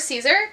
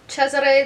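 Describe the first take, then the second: First: The name is pronounced a non-Italian way. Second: The name is pronounced the Italian way. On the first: "Or Caesar" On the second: "I did not pronounce that right. ... Cesare is how that spelling is pronounced in Italian"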